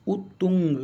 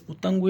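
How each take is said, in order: First: उतुंग split as "ut-tung", u in both syllables; correct pronunciation. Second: उतंग with "a", as "u-tang-gu"; mispronounced word. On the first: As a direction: sound out उतुंग deliberately with a doubled t. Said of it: "कुछ इस तरह से". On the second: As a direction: say उतंग with a short a in the second syllable. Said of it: "ये गलत लिखा है". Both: Shown as a demonstration.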